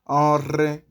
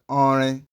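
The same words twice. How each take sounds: First: The r sound is rolled with the tongue. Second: The r sound is plain, not rolled. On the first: The speaker calls it right. "You can hear me as I'm rolling my tongue" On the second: The speaker calls it wrong. "you did not roll your tongue"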